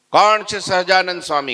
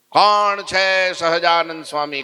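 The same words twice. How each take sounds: First: Loud, high challenge; arrogant shout. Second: Challenging shout. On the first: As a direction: demand it of the whole assembly. Sadhu repeats challenge. (ઘમંડી બૂમ) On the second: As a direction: bellow the challenge at the crowd. Sadhu barges into the assembly. (ઊંચા અવાજે પડકાર) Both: Acted.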